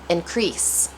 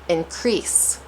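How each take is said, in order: No difference in how they are said.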